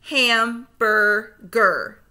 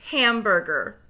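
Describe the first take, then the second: First: Slow, split into syllables; segmented syllables. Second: Said in the usual way. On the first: Shown as a demonstration. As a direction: chop Hamburger into slow syllables. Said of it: "say the syllables in segments". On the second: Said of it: "blend them all back together".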